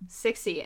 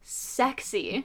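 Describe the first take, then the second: First: The first syllable sounds like 'six'. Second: The first syllable sounds like 'sex'. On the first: The speaker calls it wrong. "We've called it SIXY for, like, years" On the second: The speaker calls it right. "it's not SIXY, it's sexy"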